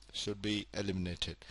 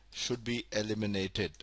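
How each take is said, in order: Both takes have the same delivery.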